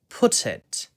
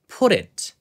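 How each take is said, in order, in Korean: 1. 가운데 t는 또렷하고 분명해요. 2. 가운데 t는 부드러운 탄설음이에요. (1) "영국식 같은 경우에는 T 발음을 살려가지고" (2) "미국식 같은 경우에는 그냥 T 발음을 날려가지고"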